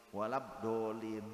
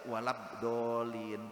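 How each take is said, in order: The two takes are said the same way.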